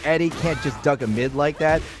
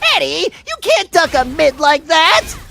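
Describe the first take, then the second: First: It is read in the speaker's normal voice. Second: It is read in an imitation of Double D.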